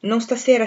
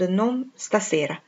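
First: Said in the usual way. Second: Very slow, falling on non, like an automaton; slow mechanical repeat. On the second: Acted. Saint John repeats his refusal to Rosamond, slow and mechanical. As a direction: let the refusal sink down slowly. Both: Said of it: "parlava come un automa".

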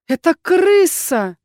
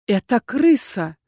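First: Higher, louder, slow insistent; stubbornly insisting, drawn out. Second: Slow trembling voice. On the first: Heroine insisting to Erkhan, higher and louder. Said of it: "не сдавалась я". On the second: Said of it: "сказала медленно дрожащим голосом". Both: A narrator's reading.

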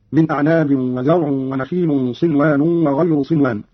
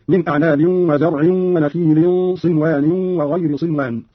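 First: Said in the usual way. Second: وزرع ونخيل ending in -in: "wa-zar'in wa-nakhilin"; slow recitation, وغير said "wa-ghayri"; genitive i endings. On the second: Shown as a demonstration. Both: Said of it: "قرأ قالون بجر العين واللام والنون والراء".

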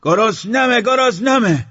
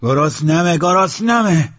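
First: Very high, loud yell; ear-splitting hungry cry; piercing scream. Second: Loud, high holler; insistent raised-pitch cry; hungry shout. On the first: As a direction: scream it at the top of your voice. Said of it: "بلندتر فریاد کشید". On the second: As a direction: yell it out, demanding food. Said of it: "داد زد". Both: Acted.

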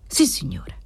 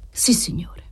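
First: Said in the usual way. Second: A breathless, submissive yes; humble whisper. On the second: Acted. Debtor whispering humbly to the usurer. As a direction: whisper it meekly, eyes down. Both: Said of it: "disse l'assistito umilmente".

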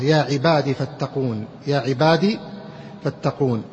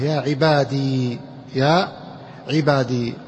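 First: "عبادي" ending in short i; kasra ending. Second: Slow "عبادي" with long final ee; silent final ya. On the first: Teacher showing most eloquent form, "عبادي" with brief final i. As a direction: say "عبادي" as ibadi, the ya dropped. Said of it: "الكسرة". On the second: Teacher showing retained ya, "عبادي" held on long ee. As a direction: stretch the end of "عبادي" to -dee. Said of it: "ساكنة". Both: Shown as a demonstration.

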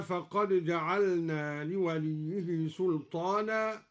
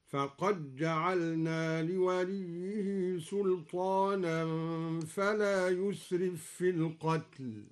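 First: Said in the usual way. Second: Slow chant, فقد جعلنا as faqajja'alna; dal merged into jim. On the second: Shown as a demonstration. Teacher chants al-Duri's reading, dal merged into jim. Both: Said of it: "أدغم الدوري الدال في الجيم".

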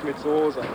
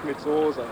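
The two takes are said the same way.

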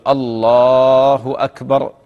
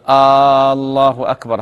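First: Short opening "a", long held "laa" in الله; slow adhan-style "allaaahu akbar"; correct takbir. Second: Loud, long held "aa" opening on الله; faulty adhan call with الله begun on a prolonged "aa"; wrong questioning hamza. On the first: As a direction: call الله أكبر slowly, stretching only the second vowel of الله. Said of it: "هكذا". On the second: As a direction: stretch the first vowel of الله أكبر into "aallaahu akbar". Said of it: "همزة الاستفهام". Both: Shown as a demonstration.

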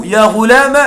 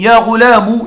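First: يا غلام stopped on the "m" with no vowel after; يا غلام voiced "ya ghulam"; no ending vowel. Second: يا غلام ending in "-u" as "ghulamu"; يا غلام voiced "ya ghulamu"; damma ending. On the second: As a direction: say يا غلام with a final short "u". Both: Shown as a demonstration. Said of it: "وتقول".

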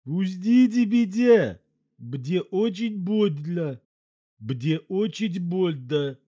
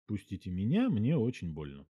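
First: High, slow, nasal elephant voice, words mangled; talking through his nose. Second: Said in the usual way. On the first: A narrator's reading. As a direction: squeeze it out through a stretched nose, in pain. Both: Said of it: "проговорил через нос".

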